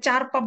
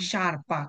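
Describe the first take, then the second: First: The word begins with a ch sound. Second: The word begins with a sh sound. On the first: The speaker calls it wrong. "এটাকে চারপা বললেন না" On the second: The speaker calls it right. "এটা হচ্ছে কি শারপা"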